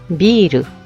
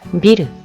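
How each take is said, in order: First: The first vowel is held long. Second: The first vowel is kept short. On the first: It means beer. "길게 했을 때는 맥주가 되고요" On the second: It means building. "짧게 했을 때는 그죠? 빌딩이 되죠"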